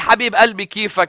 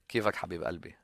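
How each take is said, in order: First: It is said in a plain, ordinary voice. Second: It is said in a soft, gentle voice.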